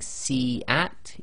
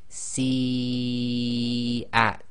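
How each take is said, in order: First: The first vowel is short, not drawn out. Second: The first vowel is drawn out long. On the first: The speaker calls it wrong. "instead of saying" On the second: The speaker calls it right. "you'd recite ... for long"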